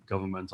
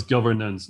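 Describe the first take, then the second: First: "government" said softer, ending in -ment; "government" named as the wrong word, ending -ment. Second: "governance" said clearly, ending in -ance; "governance" stressed, with the -nance ending clear. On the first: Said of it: "that was governance". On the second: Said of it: "not govern-, government". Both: Real, not acted.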